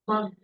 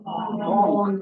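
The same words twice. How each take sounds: First: The vowel rhymes with drunk, like uh. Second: The vowel rhymes with dog, like aw. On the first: The speaker calls it right. "It should be pronounced monk. Rhymed with drunk" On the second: The speaker calls it wrong. "It is often mispronounced uh, monk. Rhymed with dog from dog"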